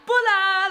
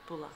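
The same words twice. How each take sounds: First: It is said with lots of energy. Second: It is said flatly, without energy.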